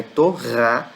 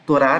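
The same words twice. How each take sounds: First: "Torá" with a strong guttural r; two clear syllables, "To-RÁ", with a throaty Hebrew r. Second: Everyday Brazilian "Torá", r lightly flicked; weaker Portuguese r. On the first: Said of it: "no hebraico é Torá". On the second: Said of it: "no português a gente fala com som mais fraco". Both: Shown as a demonstration.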